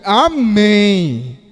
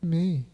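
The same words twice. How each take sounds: First: It is said strongly, with emphasis. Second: It is said weakly, without emphasis.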